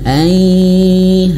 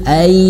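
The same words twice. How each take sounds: First: The sound goes through the nose. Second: The sound is only held, not nasal. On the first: The speaker calls it right. "masuk hidung" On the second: The speaker calls it wrong. "tidak masuk hidung"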